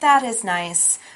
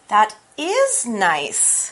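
First: It is said flat, like a robot. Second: It is said with lively emphasis.

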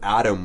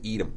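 First: The first vowel is an open a sound. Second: The first vowel sounds like a short e. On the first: "Not quite Apple, but Adam was Edom" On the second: "Adam was Edom"

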